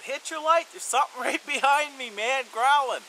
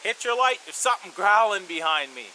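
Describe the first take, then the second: First: Higher, loud, with a nervous laugh; repeated urgent yell. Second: Loud, high urgent call across camp; yelled warning. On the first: Repeating the call to friend, louder and more urgent. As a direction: shout again, more urgent and half laughing. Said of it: "me yelling". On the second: Calling to a sleeping friend in the dark, urgent loud yell. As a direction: shout it to wake your buddy. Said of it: "So I yelled over to my friend". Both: Retold or imitated.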